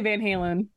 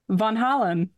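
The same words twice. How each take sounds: First: The name is said with a Midwestern American pronunciation. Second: The name is said with a Dutch pronunciation. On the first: This is the speaker's own habitual form. "but I say Van Halen. But that's just the Midwestern in me" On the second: This is the name's original form. "I think I know what the actual pronunciation is"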